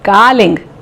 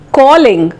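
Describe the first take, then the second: First: It is said with a South Indian accent. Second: It is said in a standard English accent.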